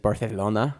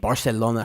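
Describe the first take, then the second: First: The c is said as a th sound. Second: The c is said as an s sound. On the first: The speaker calls it right. "it's Barcelona or something is how they pronounce it" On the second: The speaker calls it wrong. "I actually didn't say it right"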